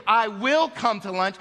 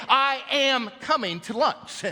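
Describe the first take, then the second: First: Said in the usual way. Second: "I am coming to lunch" said slow and firm, leaning on am; emphatic present tense. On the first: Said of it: "I wouldn't say". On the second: Shown as a demonstration. Firm, slow promise. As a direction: pastor shows emphatic "I am coming to lunch", slowly. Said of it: "I'd switch it into the present tense".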